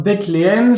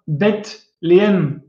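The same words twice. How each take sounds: First: Said in the usual way. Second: Bethléem slowly, split as Beth - léem; word split in parts. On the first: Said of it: "ça veut dire la maison du pain". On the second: Shown as a demonstration. Teacher showing where bête comes from, word split in parts. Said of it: "Et ça vient de là, bête".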